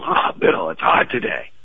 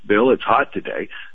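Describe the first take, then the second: First: It is said in a complaining, energetic tone. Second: It is said in a neutral, factual tone.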